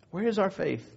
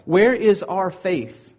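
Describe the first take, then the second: First: Soft, reflective repeat of the challenge; hushed repeat. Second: Drawn-out, emphatic question, pressing the congregation; slow, ringing rhetorical challenge. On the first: Preacher lets the challenge sink in, hushed. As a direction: drop to a quiet question and let it sink in. Same question repeated softly after pause. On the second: Preacher challenges the congregation when storms come, emphatic. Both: Real, not acted.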